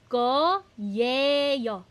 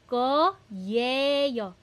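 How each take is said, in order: The two takes are said the same way.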